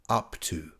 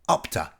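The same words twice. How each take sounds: First: The two words are said clearly and separately. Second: The two words are said quickly and run together. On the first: "doesn't always sound like up to" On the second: "It can sound more like up to"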